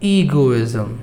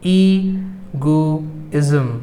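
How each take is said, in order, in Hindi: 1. यह शब्द तेज़ बोला जाता है। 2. यह शब्द धीरे बोला जाता है। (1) "मैं हर शब्द को दो बार तेज़ी से बोलूँगा" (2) "मैं हर शब्द को दो बार धीमे धीमे बोलूँगा"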